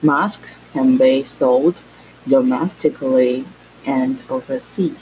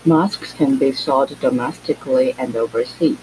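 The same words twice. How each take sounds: First: The sentence is spoken at a slow pace. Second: The sentence is spoken at a normal pace.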